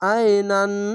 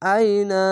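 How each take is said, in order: First: The word ends with a final n sound. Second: The word ends on a long drawn-out a vowel. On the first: The speaker calls it wrong. "নান বলবেন না, এভাবে নয়।" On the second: The speaker calls it right. "এভাবে আইনা"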